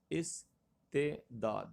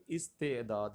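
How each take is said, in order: First: استعداد very slowly, "is ... te ... daad"; correct pronunciation. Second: Said in the usual way. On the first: Shown as a demonstration. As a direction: break استعداد into three separate syllables. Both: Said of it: "یہ تلفظ درست دیکھیے".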